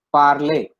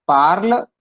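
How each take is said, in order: First: "parler" with a clear é at the end, falling; final é sound. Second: "parle" said with no final vowel and a slight rise; unaccented form. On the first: Teacher contrasts two verb forms for students, ending on a clear é. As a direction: finish "parler" on an open é. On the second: Teacher contrasts two verb forms for students, ending on the l. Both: Shown as a demonstration. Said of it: "The pronunciation sound".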